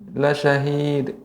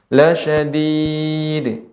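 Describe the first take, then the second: First: The final consonant has only a faint bounce. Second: The final consonant has a clear bounce. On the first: The speaker calls it wrong. "sedikit sekali" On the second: The speaker calls it right. "kita bacakan seperti biasa, tapi bedanya dia dipantulkan saja"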